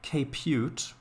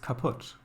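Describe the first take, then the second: First: The word is said with an anglicized pronunciation. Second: The word is said with its original German pronunciation. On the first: The speaker calls it wrong. "It's not kaput" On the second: The speaker calls it right. "pronounced in the original way"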